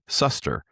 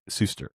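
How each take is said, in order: First: The first syllable sounds like 'suss'. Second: The first syllable sounds like 'sue'. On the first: The speaker calls it wrong. "it gave me a little pronunciation guide, S U, big S U S S" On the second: The speaker calls it right. "So I know it's Mark Suster"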